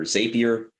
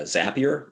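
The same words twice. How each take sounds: First: Zapier said ZAY-pee-er, long a; alternative pronunciation. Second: Zapier said ZAP-ee-er, short a; first pronunciation variant. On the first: Lawyer offers the other option, alternative pronunciation. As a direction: say Zapier with a first syllable like "zay". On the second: Lawyer unsure of the tool's name, first pronunciation variant. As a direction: say Zapier to rhyme with happier. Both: Shown as a demonstration. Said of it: "still don't know how to pronounce it".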